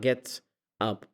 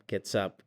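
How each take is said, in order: First: The two words are said choppily apart. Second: The two words run smoothly together. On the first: The speaker calls it wrong. "Not gets up. مو chunky الكلمة" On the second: The speaker calls it right. "like what's up?"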